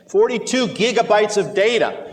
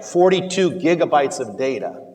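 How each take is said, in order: First: It is said loudly and dramatically. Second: It is said at a plain, ordinary loudness. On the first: It sounds alarming enough to require disclosure. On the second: It is a neutral factual detail.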